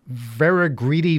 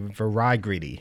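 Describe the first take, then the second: First: The I in the first word is short. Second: The I in the first word is long.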